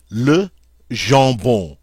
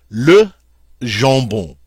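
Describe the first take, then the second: First: "Le jambon" drawn out slowly, nasal with no M or N; slow it down so students hear the nasals; slow teacher demo of "Le jambon"; slow model repeat. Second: "jambon" with nasal vowels, no M and no N sounded; teacher demo of nasal "jambon"; French nasal vowels. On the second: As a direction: keep "jambon" nasal, "ʒɑ̃bɔ̃". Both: Shown as a demonstration. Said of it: "you never hear the M".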